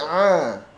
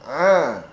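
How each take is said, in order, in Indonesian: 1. Vokalnya terbuka dan melebar, seperti 'a'. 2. Vokalnya terbuka dan melebar, seperti 'a'.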